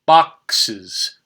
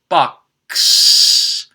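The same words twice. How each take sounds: First: "Boxes" said box-iz, two syllables; added syllable. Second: "Box" with an extra s hissed on, unvoiced; box plus s. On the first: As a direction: give "Boxes" its extra iz. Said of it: "I add is". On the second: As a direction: say "Box" ending in a long ss, no extra syllable. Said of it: "it would sound like this". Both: Shown as a demonstration.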